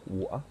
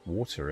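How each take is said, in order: First: It is said in an English accent. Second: It is said in a non-British accent.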